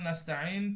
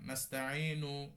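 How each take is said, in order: First: The word ends on the n consonant. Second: The word ends with a final u vowel. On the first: The reciter stops at this word. "আপনি যদি ওয়াকফ করেন নাস্তাইন পড়েন" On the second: The reciter continues without stopping. "যদি আপনি অক্ফ না করেন"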